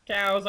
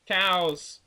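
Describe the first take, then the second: First: Higher, louder repeat of cows; ranting to viewers about hated cows, loud repeat; louder disgusted repeat. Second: Louder, higher burst of disgust; ranting to viewers about hated cows, loud. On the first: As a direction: punch it again harder. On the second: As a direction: spit the word out in disgust. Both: Real, not acted.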